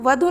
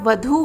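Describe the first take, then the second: First: The final vowel is a short u. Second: The final vowel is a long u. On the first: The speaker calls it wrong. "वधु नहीं होता, धा में यहाँ पर छोटा ऊ की मात्रा का प्रयोग है, ये गलत है" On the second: The speaker calls it right. "बड़ा ऊ लगेगा"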